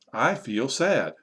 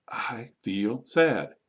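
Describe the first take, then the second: First: Slow, connected teaching delivery; model sentence. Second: Very slow, each word set apart; word-by-word modelling. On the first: Teacher modelling a feeling sentence, slow but connected. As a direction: say it slowly as one sentence. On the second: Teacher repeating for learners to copy, very slow and separated. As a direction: stretch and separate every word. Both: Shown as a demonstration.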